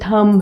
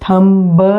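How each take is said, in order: First: The word ends on m, without b. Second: The word ends with an audible b sound. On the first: The speaker calls it right. "ये थम है" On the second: The speaker calls it wrong. "ये थंब नहीं है"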